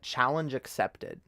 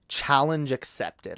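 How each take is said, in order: First: Said in the usual way. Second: Slow, emphatic declaration. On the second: Pretend. Taking on an accent challenge, slow and emphatic. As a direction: stretch out "Challenge accepted" for effect. Repeats challenge line for effect.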